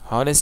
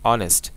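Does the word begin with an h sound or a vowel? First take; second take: h sound; vowel. First: The word begins with an audible h sound. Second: The word begins directly with a vowel sound. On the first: The speaker calls it wrong. "হনেস্ট কিন্তু বলি না" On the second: The speaker calls it right. "আমরা বলেছি অনেস্ট"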